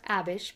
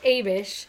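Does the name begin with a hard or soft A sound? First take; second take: soft; hard. First: The name begins with a soft A sound. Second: The name begins with a hard A sound. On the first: This matches other familiar names like Alma. "because Alma and all the other soft A sounds" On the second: This is the pronunciation the guide gives. "The pronunciation guide says Abish"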